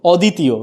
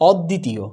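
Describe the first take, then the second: First: অদ্বিতীয় with a single d, "o-ditiyo"; wrong pronunciation. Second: অদ্বিতীয় with doubled d, "od-ditiyo"; correct pronunciation. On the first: Teacher showing students the mistake, single-d mispronunciation. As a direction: say অদ্বিতীয় as "oditiyo", no doubled d. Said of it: "কিন্তু উচ্চারণটা কিন্তু অদ্বিতীয় না". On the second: Teacher giving students the correct form, doubled-d demo. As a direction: hold the d in অদ্বিতীয়, "odditiyo". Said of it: "এটা কি হয়ে যাবে". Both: Shown as a demonstration.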